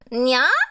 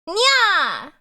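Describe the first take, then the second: First: The pitch goes up at the end. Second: The pitch does not go up at the end. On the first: "You gotta go up at the end for nya" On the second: "That doesn't sound like a cat"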